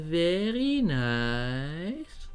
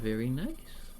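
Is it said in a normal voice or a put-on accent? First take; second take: put-on; normal. First: It is said in a put-on foreign accent. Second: It is said in the speaker's normal accent. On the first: "if I were to be uh, Borat, I'd say" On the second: "let me just say"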